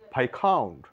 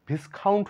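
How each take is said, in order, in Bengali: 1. 's' ধ্বনিটি নীরব। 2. 's' ধ্বনিটি উচ্চারিত হয়। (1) "এখানে এস এর কোনো সাউন্ড নেই" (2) "ভিসকাউন্ট ভিসকাউন্ট না"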